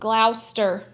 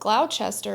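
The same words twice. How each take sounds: First: The name is said in a shortened form. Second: The name is said with every letter sounded. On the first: The speaker calls it right. "it's not how it's spelled" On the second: The speaker calls it wrong. "I got some comments"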